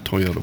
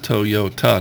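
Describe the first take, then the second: First: It is said with an American pronunciation. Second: It is said with a Japanese pronunciation. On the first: This is how people say it locally. The speaker calls it wrong. "not Toyota" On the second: This is how it is said in its original language. The speaker calls it right. "it's Toyota"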